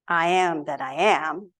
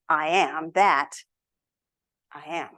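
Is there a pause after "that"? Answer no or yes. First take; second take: no; yes. First: It runs on with no pause after "that." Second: There is a pause after "that." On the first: A single statement of self-existence. The speaker calls it wrong. "we are used to hearing" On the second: The speaker is one with everything, and simply is. The speaker calls it right. "with a comma after the that"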